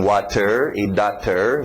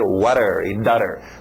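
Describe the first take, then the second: First: The words are pronounced fully and carefully. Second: The words are pronounced quickly in a reduced form.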